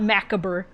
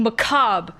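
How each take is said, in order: First: "macabre" as MACK-uh-ber; preferred mispronunciation. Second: "macabre" as muh-KAHB; accepted pronunciation. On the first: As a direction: stress the first syllable of "macabre", sound the ending. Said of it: "I hate how that word is pronounced". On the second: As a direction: silent ending on "macabre". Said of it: "pronouncing them wrong". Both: Shown as a demonstration.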